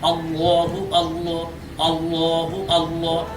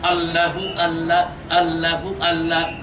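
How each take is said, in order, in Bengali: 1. Allah শব্দের 'l' মোটা ও ভারী শোনায়। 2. Allah শব্দের 'l' পাতলা ও হালকা শোনায়। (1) "পর বা মোটা করে উচ্চারণ করতে হবে" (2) "এই জিকির শুদ্ধ জিকির নয়"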